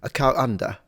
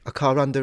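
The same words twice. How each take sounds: First: A glottal stop separates car from under. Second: An R sound links car to under. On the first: "Or you could substitute it with a glottal stop" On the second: "people either pronounce the R when it's followed by a vowel"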